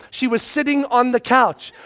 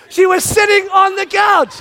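First: Said in the usual way. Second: Higher, louder sitting on the couch; dad outraged she was just sitting there; exasperated. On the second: Shown as a demonstration. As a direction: stress sitting indignantly. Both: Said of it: "repeated louder".

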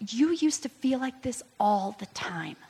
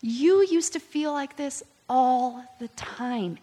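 First: Higher whisper, nearly toneless. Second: Higher and slower, every word given weight; slow tender. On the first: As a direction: breathe it out gently. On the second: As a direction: let it land gently and deliberately. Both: Retold or imitated. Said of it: "He's like".

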